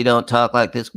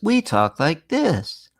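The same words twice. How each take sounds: First: Flat monotone delivery; flat speech. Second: Slow, melodic sing-song talk; sing-song speech. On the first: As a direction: say it flat like a robot. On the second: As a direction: let the words sing. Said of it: "We don't talk like this". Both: Shown as a demonstration.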